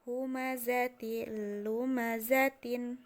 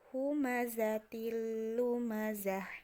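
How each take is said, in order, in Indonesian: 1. Frasa itu berakhir dengan t, vokal, dan n. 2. Frasa itu berakhir dengan h yang berdesah.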